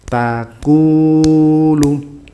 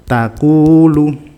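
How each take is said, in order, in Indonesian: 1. Diucapkan dengan ketukan lambat. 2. Diucapkan dengan ketukan cepat. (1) "Kalau ketukannya lambat ya, ya ikut lambat" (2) "misalnya ketukannya segini"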